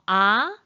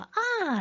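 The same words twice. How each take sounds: First: The pitch rises from middle to high. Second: The pitch falls sharply from high to low. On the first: "이성" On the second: "마지막 사성. 발음은 어떻게 하지?"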